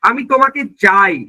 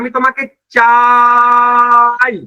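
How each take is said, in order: First: The vowel in the last word is short. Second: The vowel in the last word is stretched long.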